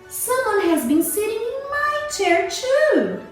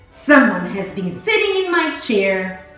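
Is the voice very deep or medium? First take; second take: medium; very deep. First: It is said in a middle-sized, medium voice. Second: It is said in a great big, deep voice.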